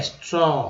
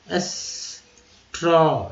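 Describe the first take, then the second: First: Said in the usual way. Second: "स्ट्रॉ" split as एस, long pause, ट्रॉ; very slow "स्ट्रॉ" in two parts; drawn-out sounding out. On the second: Shown as a demonstration. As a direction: hold the opening of "स्ट्रॉ", then release ट्रॉ. Teacher breaks the word apart.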